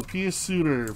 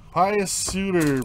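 First: "Pius" said PEE-us, with an ee sound. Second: "Pius" said PIE-us, drawn out slowly. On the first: Host trying the other version of the name, "Pius" as PEE-us. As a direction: say the first vowel of "Pius" like pea. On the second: Host trying the name Pius Suter, "Pius" as PIE-us. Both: Shown as a demonstration. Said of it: "Pius or Pius Suter".

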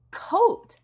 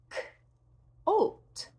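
First: Said in the usual way. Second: K-oat with the k pulled apart; k split off. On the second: Shown as a demonstration. Teacher segments coat as K-oat. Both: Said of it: "K-oat".

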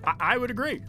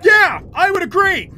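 First: Said in the usual way. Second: High, loud agreeing yell; loud mock shout. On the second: Shown as a demonstration. Streamer shouting the joke to chat, high and loud. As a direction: belt it out as a joke. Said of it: "Oh, the joke".

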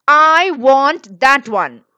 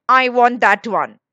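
First: Put-on loud, drawn-out childish demand; shouted demand. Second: A slightly louder, insistent demand; mildly insistent child wanting something; childish demand. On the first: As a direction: shout it slowly, leaning on each word. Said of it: "shouted Anil". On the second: Boy demands an orange in story. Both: A narrator's reading.

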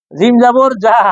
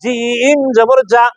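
First: জিম জবর যা rattled off without stretching জিম; quick, careless জিম জবর যা; undifferentiated letters. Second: জিম held very long, then a hard যা; slow, drawn-out জিম জবর যা; firm jim. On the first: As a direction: say যা with the same everyday j as every other letter. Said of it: "দেখেন কিভাবে একরকম করেন". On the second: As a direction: press the j of যা firmly from mid-tongue. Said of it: "জিহ্বার মাঝখান থেকে শক্তভাবে". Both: Shown as a demonstration.

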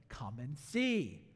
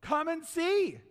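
First: Gentle invitation. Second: Firm invitation. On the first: Shown as a demonstration. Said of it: "I love Philip". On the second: Acted.

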